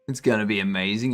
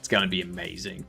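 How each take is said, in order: First: It is said in a put-on impression voice. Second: It is said in the speaker's normal voice.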